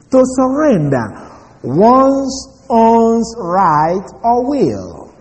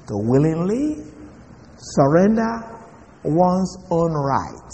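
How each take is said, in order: First: "surrender" pitched high, "one's own right" drawn out very slowly; slow high stress on surrender. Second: Softer, slower restatement stressing "willingly"; soft slow repeat. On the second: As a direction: drop the level and lean gently on "willingly", ending very slowly on "one's own right". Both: Shown as a demonstration. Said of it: "let me repeat that".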